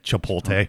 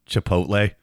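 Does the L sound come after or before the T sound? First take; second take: before; after. First: The L sound comes before the T. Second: The L sound comes after the T. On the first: The speaker calls it wrong. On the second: The speaker calls it right.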